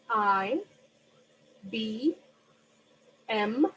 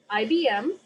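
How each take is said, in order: First: Each letter is separated by a one-second pause. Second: The letters are run together as one chunk. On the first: "with one second in between each" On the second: "I'm going to read them in a different way"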